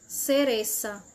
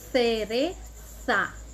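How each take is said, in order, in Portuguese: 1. Os sons c e z soam como s. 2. Os sons c e z soam como th. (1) "Vejam que tem o som do S" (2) "com a língua encostando entre os dentes"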